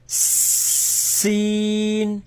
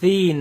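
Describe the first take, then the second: First: It begins with a sharp s sound, tongue hidden. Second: It begins with a th sound, tongue showing. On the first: The speaker calls it right. "but seen" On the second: The speaker calls it wrong. "Don't say thin"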